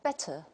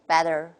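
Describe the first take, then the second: First: It is said in a British accent. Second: It is said in an American accent.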